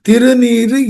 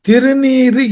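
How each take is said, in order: The two takes are said the same way.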